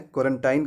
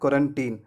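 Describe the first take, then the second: First: The last syllable is said as 'tine'. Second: The last syllable is said as 'teen'. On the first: The speaker calls it wrong. "क्वारंटाइन कहना गलत है।" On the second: The speaker calls it right. "इस word का सही उच्चारण होगा क्वारंटीन।"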